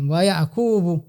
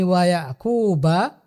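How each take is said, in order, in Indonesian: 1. Nama itu berakhir dengan vokal 'u'. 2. Nama itu berakhir dengan vokal 'a'. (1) "Yang benar adalah wa Yaqubu" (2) "dengan ba yang di fathah"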